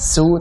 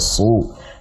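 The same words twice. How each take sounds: First: The s sound is light and thin. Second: The s sound is heavy and thick. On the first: The speaker calls it wrong. "bukan su" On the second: The speaker calls it right. "Su su tebal ya"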